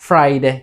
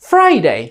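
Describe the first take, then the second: First: The first syllable is said without extra stress. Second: The first syllable is said with strong stress.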